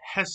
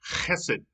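First: It starts with a soft, plain h sound. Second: It starts with a harsh, raspy throat sound. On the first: The speaker calls it wrong. "it's not just hesed" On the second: The speaker calls it right. "it's chesed, right? ... if you don't spit on your neighbor when you're saying this, you didn't say it right"

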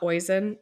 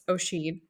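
First: The name is said like 'oy-sin'. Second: The name is said like 'oh-shin'. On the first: The speaker calls it wrong. "not Oisin" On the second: The speaker calls it right. "It's Oshin"

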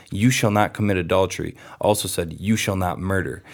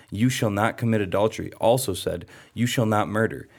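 No difference in how they are said.

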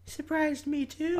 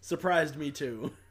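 First: It is said in a put-on voice. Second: It is said in a normal voice.

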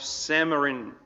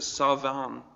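First: The middle consonant is an M sound. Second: The middle consonant is a V sound. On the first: The speaker calls it wrong. "that's actually not how you pronounce it" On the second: The speaker calls it right. "You pronounce it Savan or something like that"

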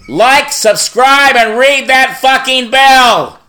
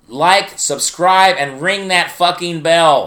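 First: It is said much louder. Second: It is said at normal volume.

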